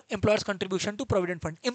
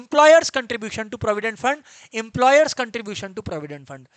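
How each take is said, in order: First: Said in the usual way. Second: Slow, loud, every word of Employers contribution to provident fund hammered; emphatic repetition. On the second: Shown as a demonstration. Teacher drilling the term into students, slow and loud.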